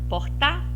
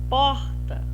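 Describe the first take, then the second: First: The stress is on the last syllable. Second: The stress is on the first syllable. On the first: The speaker calls it wrong. "O tá vai ser pronunciado mais forte" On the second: The speaker calls it right. "Vou testar agora a, a sílaba por"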